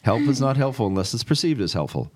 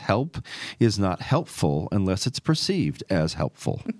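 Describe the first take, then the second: First: It is said fast. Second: It is said at a normal speed.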